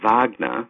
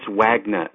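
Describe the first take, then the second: First: The name is said with a German pronunciation. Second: The name is said with an English pronunciation. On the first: This is how the name is said in German. "which is actually the correct German pronunciation" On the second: This is how the speaker's family says the name. "That's Wagner"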